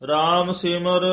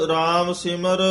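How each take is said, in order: The two takes are said the same way.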